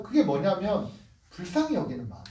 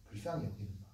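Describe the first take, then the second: First: Said in the usual way. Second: Much lower and much softer; hushed repetition. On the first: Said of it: "repeats phrase then softer". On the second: Shown as a demonstration. Preacher echoing the key phrase softly to the congregation. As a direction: drop to a near whisper on the phrase.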